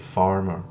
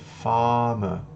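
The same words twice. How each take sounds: First: The R after the vowel is pronounced. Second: The R is silent and the A is lengthened. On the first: The speaker calls it wrong. "a nossa tendência é fazer farmer. Porém, ele não vai ser farmer" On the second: The speaker calls it right. "ele vai ser farmer. Eu vou estender esse A um pouquinho"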